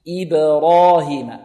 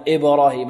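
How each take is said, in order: First: The first vowel is weakened and unclear. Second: The first vowel is a full clear i. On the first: The speaker calls it wrong. "لا يعطون الكسرة حقها" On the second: The speaker calls it right. "لابد أن نحافظ على كسر"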